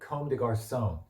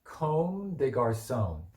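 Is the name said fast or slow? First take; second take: fast; slow. First: It is said at a quick pace. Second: It is said at a slower pace.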